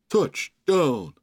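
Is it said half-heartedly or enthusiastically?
half-heartedly. It is said flatly, as if mocking.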